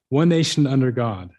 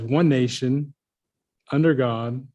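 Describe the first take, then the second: First: There is no pause after 'nation'. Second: There is a pause after 'nation'. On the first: "I don't pause between nation and under" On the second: "we notice that there's a, a pause there, kind of a natural pause"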